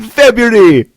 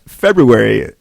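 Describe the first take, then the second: First: High, loud Jamaican-accent exclamation; gleeful catchphrase in a big mock-Jamaican accent. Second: Said in the usual way. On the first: Shown as a demonstration. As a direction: belt out FEBRUARY in a Jamaican accent. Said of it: "in a Jamaican accent". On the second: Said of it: "my favorite word to say".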